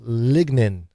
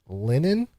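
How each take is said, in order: First: The G is clearly pronounced in the word. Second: The G is silent in the word. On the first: The speaker calls it right. "pronounce the G" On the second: The speaker calls it wrong. "it feels like it should be linen, like a silent G"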